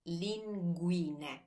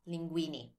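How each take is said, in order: First: The word ends in an 'eh' vowel. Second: The word ends in an 'ee' vowel. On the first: The speaker calls it right. "the ending E in Italian is always, always E" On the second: The speaker calls it wrong. "Notice it's not linguini"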